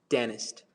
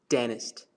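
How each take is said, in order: Both takes have the same delivery.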